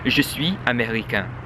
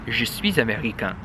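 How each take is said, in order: First: Suis and américain are said without a linking z. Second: A z sound links suis to américain. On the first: The speaker calls it wrong. "it's not proper" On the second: The speaker calls it right. "You're supposed to say"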